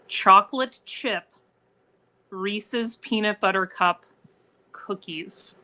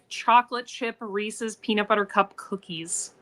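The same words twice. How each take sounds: First: It is said slowly and deliberately. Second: It is said at normal conversational speed.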